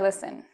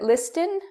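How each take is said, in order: First: The T sound in the middle is silent. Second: The T sound in the middle is pronounced. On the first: The speaker calls it right. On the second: The speaker calls it wrong.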